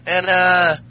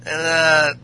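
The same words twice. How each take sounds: The two takes are said the same way.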